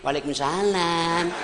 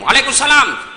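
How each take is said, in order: First: It is said in a soft, sweet, lingering voice. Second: It is said in a firm, curt voice.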